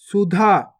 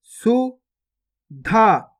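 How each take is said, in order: First: Said in the usual way. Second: गुफा drawn out very slowly, each sound held long; slow stretched reading. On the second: Shown as a demonstration. Teacher showing pupils each sound, drawn out very slowly. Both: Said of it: "पहले तो आपको शब्द को गौर से सुनना है".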